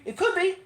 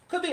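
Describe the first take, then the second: First: Playful jump way up in pitch on "It could be", then straight back down; sing-song. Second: Said in the usual way. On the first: Acted. Musing to viewers whether this is improv poetry, in a high sing-song. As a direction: toss off "It could be" as a high teasing lilt.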